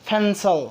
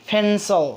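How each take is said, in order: The two takes are said the same way.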